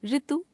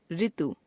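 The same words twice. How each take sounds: First: ऋतु said as रितु, plain r plus i; wrong pronunciation. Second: Said in the usual way. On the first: Shown as a demonstration. Teacher showing a common error, ऋतु as रितु. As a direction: open ऋतु with "ri". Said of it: "अशुद्ध". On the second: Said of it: "शुद्ध".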